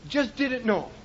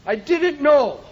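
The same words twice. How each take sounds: First: "Just didn't know" repeated much softer and lower, trailing off; soft echo. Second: Said in the usual way. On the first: Real, not acted. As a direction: let the repeat fall away to almost nothing. Repeated line, second softer.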